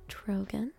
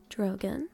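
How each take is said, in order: Both takes have the same delivery.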